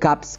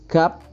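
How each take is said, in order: First: The word ends in a p followed by s. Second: The word ends in a plain p sound. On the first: The speaker calls it wrong. "nggak boleh gaps gitu" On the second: The speaker calls it right. "bacanya kan ini gap doang"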